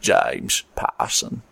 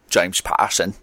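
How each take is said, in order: First: Low, slow, husky Cockney Michael Caine; deep Michael Caine accent, almost whispered; Michael Caine impression. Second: Michael Caine accent. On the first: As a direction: drop into a slow London Michael Caine growl. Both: Shown as a demonstration. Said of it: "I'm just gonna do Michael Caine".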